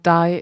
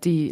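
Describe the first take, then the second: First: The vowel sounds like the English 'eye'. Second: The vowel sounds like the English 'ee'. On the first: The speaker calls it wrong. "it's not die" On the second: The speaker calls it right. "like the. It's just the German word for it"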